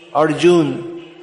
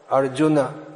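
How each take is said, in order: First: The word ends on n, without a final vowel. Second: The word ends with a short final a vowel. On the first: This is the common Hindi form. The speaker calls it wrong. "because of dropping the A at the end" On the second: This is the proper Sanskrit form. The speaker calls it right. "these words should be Guna, Arjuna"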